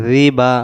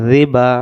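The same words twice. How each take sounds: The two takes are said the same way.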